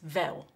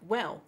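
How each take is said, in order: First: It starts with a V sound, Cockney style. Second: It starts with a W sound.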